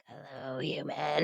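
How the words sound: It is said in a raspy, Roz-like smoker's voice.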